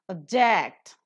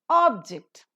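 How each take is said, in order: First: The stress is on the second syllable. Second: The stress is on the first syllable. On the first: It is used as a verb. "a verb" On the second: It is used as a noun. "a noun"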